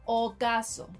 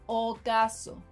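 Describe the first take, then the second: No difference in how they are said.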